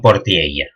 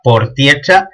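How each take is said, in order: First: The consonant is a palatal ll-like sound. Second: The consonant is a ch-like sound, tongue tip raised. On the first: This is the form used in the rest of the language. "Y no portiella" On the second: This is the local western speech form. "en este texto oral se diga portiecha"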